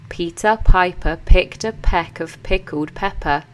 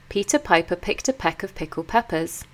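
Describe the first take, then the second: First: It is said slowly, word by word. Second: It is said at a normal, quicker pace.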